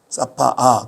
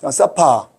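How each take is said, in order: First: The final vowel is drawn out long. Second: The final vowel is short and clipped. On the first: "일부러 사파아라고 길게 해주는 거예요" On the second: "발음이 음절이 두 개밖에 안 돼"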